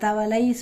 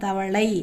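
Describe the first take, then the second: First: The l sound is light, made with the tongue forward. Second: The l sound is heavy, made with the tongue curled back. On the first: The speaker calls it wrong. "சொல்லாமல்" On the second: The speaker calls it right. "தவளை அப்படின்னு சொல்கிறோம்"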